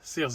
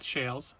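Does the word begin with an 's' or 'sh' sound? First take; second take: s; sh. First: The word begins with a plain s sound. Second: The word begins with a sh sound. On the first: The speaker calls it right. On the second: The speaker calls it wrong. "not shales"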